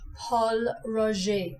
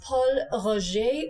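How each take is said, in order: First: The name is said with an English accent. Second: The name is said with a French accent. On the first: "or to dial it down to English" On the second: "It's Paul Roger"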